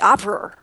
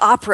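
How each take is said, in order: First: The word ends with an added R sound. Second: The word ends without an R sound. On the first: "they add an R sound" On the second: "instead of opera"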